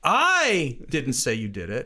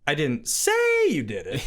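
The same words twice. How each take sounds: First: The stress is on the word I. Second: The stress is on the word say.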